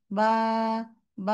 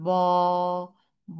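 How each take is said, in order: First: বা light with the tongue relaxed. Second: ব voiced from the back of the tongue; wrong tense ba; swollen heavy ba. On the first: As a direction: let বা come out loose and easy. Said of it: "জিহ্বাটা relax থাকে". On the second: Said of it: "ফুলে যাবে". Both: Shown as a demonstration.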